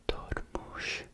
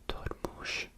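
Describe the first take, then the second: The two takes are said the same way.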